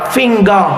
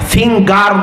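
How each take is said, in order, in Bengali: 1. শেষের r ধ্বনিটি silent থাকে। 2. শেষের r ধ্বনিটি স্পষ্টভাবে উচ্চারিত হয়। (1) "রটা সাইলেন্ট মুডে উচ্চারিত হয়" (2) "ইন্ডেক্স ফিঙ্গার না"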